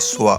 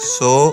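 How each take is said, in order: First: The syllable is said as 'swa' with a glide. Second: The syllable is said as a rounded 'so'. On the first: The speaker calls it right. "ആ ഉച്ചാരണം ശരിക്കും പിടിക്കണം" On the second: The speaker calls it wrong. "സോ അല്ല"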